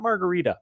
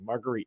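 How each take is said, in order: First: Said with a standard, non-Jersey pronunciation. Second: Said with a New Jersey pronunciation. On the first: "not Margarita" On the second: "that's how we pronounced it in Jersey"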